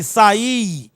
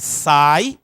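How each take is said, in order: First: "saí" in two syllables, I strong, higher and drawn out; stressed I in saí. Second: "sai" as one syllable, stress on the A, I gliding weakly. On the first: Teacher showing students the contrast, stressed final I in "saí". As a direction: hit the final I of "saí" hard, sa-Í. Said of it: "ela está fortemente pronunciada". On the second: Teacher showing students the contrast, weak I in "sai". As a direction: say "sai" with a strong A and a short weak I. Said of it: "esse I é fraco". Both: Shown as a demonstration.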